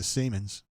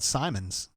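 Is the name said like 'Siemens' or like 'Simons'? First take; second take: Siemens; Simons. First: The name is said like 'Siemens'. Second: The name is said like 'Simons'. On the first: The speaker calls it right. "we had to change it to Siemens" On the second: The speaker calls it wrong. "he used to call it Simons"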